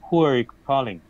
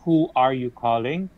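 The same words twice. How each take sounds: First: Some sounds are dropped and words run together. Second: Every word is pronounced fully and clearly. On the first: This is the casual way to say it. "you don't really need to pronounce the entire word" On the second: This is the formal way to say it. "that is the formal way, the correct way"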